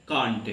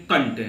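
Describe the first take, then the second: First: कांट with a long broad aa; British can't. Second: कंट with a short a; कंट on a brief short vowel, no long aa; American can't. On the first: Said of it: "तो हम लोग पढ़ते क्या". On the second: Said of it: "यही American लोग जो होंगे". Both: Shown as a demonstration.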